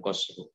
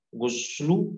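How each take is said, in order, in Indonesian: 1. Vokal pertama adalah bunyi 'a'. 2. Vokal pertama adalah bunyi 'u'. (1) "ghain kapan difathahkan" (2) "Dobet kapan didomahkan"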